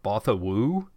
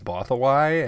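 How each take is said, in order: First: The name ends with a 'woo' sound. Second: The name ends with a 'why' sound. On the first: The speaker calls it wrong. "I always thought it was like Bothawoo" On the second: The speaker calls it right. "the pronunciation is Bothawai"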